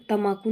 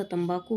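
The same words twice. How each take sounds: First: तम्बाकू said "tamaaku", without b; wrong pronunciation. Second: Said in the usual way. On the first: Shown as a demonstration. Teacher rejecting a mistake, तम्बाकू said tamaaku. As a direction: drop the b from तम्बाकू. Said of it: "नहीं होता". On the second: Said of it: "होता".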